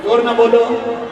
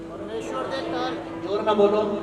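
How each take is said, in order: First: Firm, projected demand for a response; insistent call. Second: Softer call for a response; low-key prompt. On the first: Preacher won't go on until they answer, insistent call. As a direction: call out to make them answer up. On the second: Preacher asks congregation to answer, low-key prompt. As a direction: quietly prod them to speak up. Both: Real, not acted.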